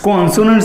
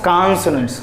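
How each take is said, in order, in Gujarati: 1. પહેલો સ્વર 'oh' જેવો સંભળાય છે. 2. પહેલો સ્વર 'ah' જેવો સંભળાય છે.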